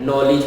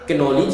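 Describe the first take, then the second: First: The word starts with n; k is silent. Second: The word starts with a sounded k. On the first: This is how the word is read. The speaker calls it right. "पढ़ने में नॉलेज पढ़ा गया, इसमें के silent हुआ" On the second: This is how the word is written. The speaker calls it wrong. "English में कैनोलिज लिखा गया"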